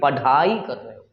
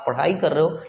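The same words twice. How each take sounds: First: The middle consonant is an aspirated plain stop. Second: The middle consonant is an aspirated retroflex flap. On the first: The speaker calls it wrong. "ना कि पढ़ाई कर रहे हो" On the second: The speaker calls it right. "नीचे में नोकता चिन्ह होता है"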